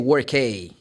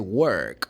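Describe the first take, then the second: First: The word ends with the letter name kay. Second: The word ends with a short k sound. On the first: The speaker calls it wrong. "We don't say work A" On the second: The speaker calls it right. "No, we say work"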